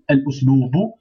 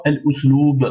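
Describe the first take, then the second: First: L usloubu with the written -u sounded at the end; final vowel voiced. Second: L usloub ending on a stopped b, no final vowel; last letter blocked. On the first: Teacher reading what is written, final u of usloubu sounded. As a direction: voice the last u of usloubu. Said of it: "Bon, c'est marqué L". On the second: Teacher reading the word alone, final b of usloub blocked. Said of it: "bloquer la dernière lettre". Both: Shown as a demonstration.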